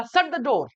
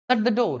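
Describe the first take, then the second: First: "Shut the door" as a command, with "shut" hit a bit firmer; firm order. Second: "Shut the door" as a gentle request, not a command; polite request. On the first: Teacher showing students how an order sounds, commanding. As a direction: give the order, no asking. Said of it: "कोई आदमी order दे रहा है". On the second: Teacher showing students a polite request, gently. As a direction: ask them kindly to shut the door. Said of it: "request वाला भाव यहाँ पर चल रहा है". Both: Shown as a demonstration.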